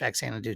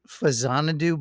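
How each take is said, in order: First: The second syllable starts with a ks sound. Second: The second syllable starts with a z sound. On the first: This is how North American kids said it. "they pronounced it Faxanadu too" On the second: This is the official pronunciation. "I guess technically it's Fazanadu"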